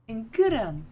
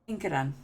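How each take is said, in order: First: The name is said in an anime-like style. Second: The name is said in a plain way. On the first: "I feel like I'm like an anime character when I say it like that" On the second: "I just said it wrong"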